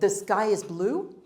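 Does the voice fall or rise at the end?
rise. The voice rises at the end. The speaker calls it wrong.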